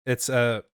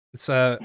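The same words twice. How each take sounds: The two takes are said the same way.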